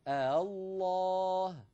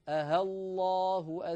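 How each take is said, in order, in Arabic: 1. تُسهَّل الهمزة الثانية فتُنطق بين الهمزة وحرف المد. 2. تُبدل الهمزة الثانية بصوت الهاء. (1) "فأنطقها بين الهمزة والألف هكذا" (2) "أكون قد أبدلت الهمزة الثانية هاء"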